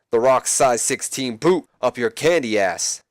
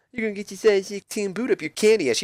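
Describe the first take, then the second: First: Said in the usual way. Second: High, mocking sing-song parrot; mocking imitation. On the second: Jericho mocking The Rock's threat in a high voice. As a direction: throw his words back in a silly high voice. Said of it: "Jericho then mocks him".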